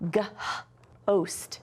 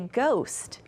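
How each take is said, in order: First: The H is sounded after the G. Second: The H is silent after the G. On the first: The speaker calls it wrong. "we don't say g-host" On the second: The speaker calls it right. "We just say ghost"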